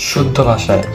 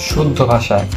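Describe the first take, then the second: The two takes are said the same way.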